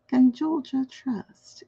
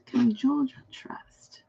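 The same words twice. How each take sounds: First: Said in the usual way. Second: Slow breathy whisper, no voice. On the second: Shown as a demonstration. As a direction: hush it like a secret. Repeats question, then whispers it.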